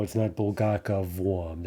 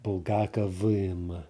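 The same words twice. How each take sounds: First: Bulgakovom with an -om ending, said slowly; wrong ending. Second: Bulgakovim with an -im ending, slowly; Bulgakovim, the -im ending drawn out; correct ending. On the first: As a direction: say Bulgakovom as the common mistake. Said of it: "That would be the typical mistake". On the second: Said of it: "instead of that". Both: Shown as a demonstration.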